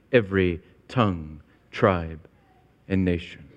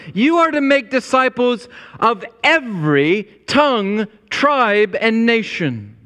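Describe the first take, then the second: First: Tongue, tribe, and nation dropped much softer and lower; hushed. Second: Tongue, tribe, and nation called out higher; fervent proclamation. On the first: Pastor closing the point to his church, hushed and low. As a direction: let the list sink to a near hush. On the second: Pastor proclaiming the mission to his church, fervent call. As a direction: ring out each word of the list. Fervent list, then hushed repeat. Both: Acted.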